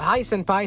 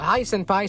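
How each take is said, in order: First: The voice is bright, bouncy and cheerful. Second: The same.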